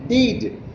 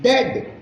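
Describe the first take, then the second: First: The vowel is long, as in bead. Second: The vowel is short, as in bed. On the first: The speaker calls it wrong. "not deed" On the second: The speaker calls it right. "you have to say it dead"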